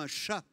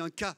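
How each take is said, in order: First: The word begins with an sh sound. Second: The word begins with a k sound. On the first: This is the standard French form. "Nous disons" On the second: This is the Norman form. "En Normandie, on dit"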